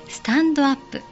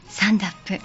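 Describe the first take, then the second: First: Every syllable is said separately, katakana style. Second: The t is dropped, sounding like 'sandap'.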